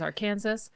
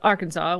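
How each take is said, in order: First: The name is said as it is spelled. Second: The name is said in its usual way.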